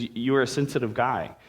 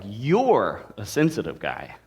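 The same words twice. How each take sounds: First: Said in the usual way. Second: You're stretched, the rest falling away; stress on YOU'RE. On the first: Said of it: "the sentence is". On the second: Shown as a demonstration. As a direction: lean hard on the word You're. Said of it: "you could emphasize any of those words".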